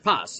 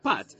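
First: The word ends with an s sound. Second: The word ends with a t sound. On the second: "If you pronounce it Sfaradit, or like an Israeli would, you pronounce it pat"

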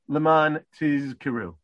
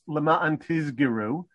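First: A voiced z is followed by an unvoiced k. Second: Both middle consonants are voiced, z and g. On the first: The speaker calls it right. "if you pay attention, you say" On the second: The speaker calls it wrong. "if you voice the kaf and you make a ka into a g"

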